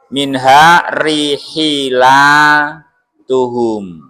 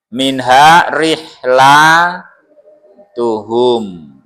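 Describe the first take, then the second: First: An i vowel is said after the h. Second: No vowel is said after the h.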